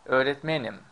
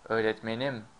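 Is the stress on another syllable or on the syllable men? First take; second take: men; another syllable. First: The stress falls on the syllable men. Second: The stress falls on a syllable other than men. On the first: The speaker is a teacher. "When you say I'm a teacher, we say öğretmenim ... You see, men is stressed" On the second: It refers to the speaker's teacher. "if you say my teacher, ... what we say is öğretmenim"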